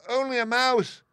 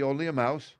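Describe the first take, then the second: First: Very high, loud, offended little mouse; indignant squeak. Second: Mildly higher, unoffended Woodman voice; matter-of-fact Woodman. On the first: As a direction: squeal it back in outrage. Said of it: "cried the little animal indignantly". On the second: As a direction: mention it in passing, pitched a little up. Woodman's offhand take, echoed indignantly. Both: A narrator's reading.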